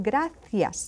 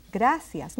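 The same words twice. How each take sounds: First: "gracias" with the C said as TH; Castilian "gracias", lisped TH for the C; TH sound in gracias. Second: "Gracias" with the C said as S; S sound in gracias. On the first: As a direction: say "gracias" as GRA-thyas. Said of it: "That C can be pronounced as a T H sound". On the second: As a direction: say "Gracias" as GRA-syas. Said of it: "Now in Spain". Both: Shown as a demonstration.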